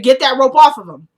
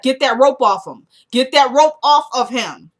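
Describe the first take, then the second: First: Louder retold angry order, much louder; Lucian's fury, shouted in full. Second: Angry command. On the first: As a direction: bark the order at the crowd. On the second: Retold or imitated. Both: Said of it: "I appreciated the anger in Lucian's voice".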